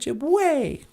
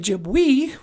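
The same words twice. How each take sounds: First: The final vowel is an 'ay' sound. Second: The final vowel is not an 'ay' sound. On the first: The speaker calls it right. "ease in Ojibwe sound like a" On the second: The speaker calls it wrong. "We don't say Ojibwe"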